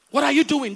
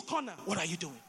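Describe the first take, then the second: First: Said in the usual way. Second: Dropped to a near whisper; quiet. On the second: Shown as a demonstration. Preacher asks the congregation, hushed and low. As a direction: ask it softly, almost to yourself.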